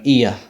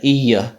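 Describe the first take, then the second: First: The vowels join directly with no y glide. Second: A y glide is heard between the vowels. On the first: "you say it quickly, you just end up going" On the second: "feels kind of awkward to say"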